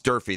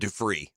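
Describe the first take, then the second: First: The name is said as Durfee. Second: The name is said as Dufree. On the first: The speaker calls it right. "It's Durfee" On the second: The speaker calls it wrong. "They said Dufree"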